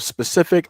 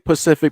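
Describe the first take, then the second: First: The word is said in its full standard form. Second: The word is said without its opening s sound. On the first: "instead of specific" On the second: "I say Pacific"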